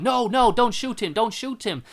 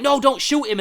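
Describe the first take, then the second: First: High, loud, frantic no; pleading shout. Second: High and loud, frantic; pleading shout. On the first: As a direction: beg him not to shoot. Doctor begging the cop. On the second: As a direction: cry out to stop the shot. Rewriting the doctor's line. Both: Retold or imitated.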